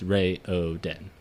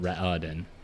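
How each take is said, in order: First: The first vowel is long, like 'ray'. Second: The first vowel is short, like 'rah'. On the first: The speaker calls it right. "all of the vowels in their names are long" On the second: The speaker calls it wrong. "It's not Ra O Den"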